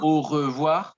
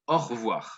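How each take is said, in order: First: Every syllable is pronounced fully and carefully. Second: The syllables are clipped into a shorter form. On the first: "Not really au revoir" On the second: "we make it shorter. ... more likely au revoir"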